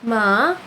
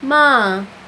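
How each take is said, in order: First: The pitch dips down then rises again. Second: The pitch starts high and drops down. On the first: "you dip down and back up again" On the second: "you start like high and, and drop down"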